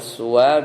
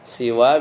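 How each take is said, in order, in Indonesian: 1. Vokal pertama adalah bunyi u. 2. Vokal pertama adalah bunyi i. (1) "kadang dibaca suwa, seperti huda" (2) "kadang dibaca siwa itu seperti ridon"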